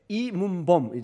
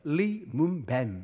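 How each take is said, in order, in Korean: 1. 이 이름은 beom으로 끝납니다. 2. 이 이름은 baem으로 끝납니다.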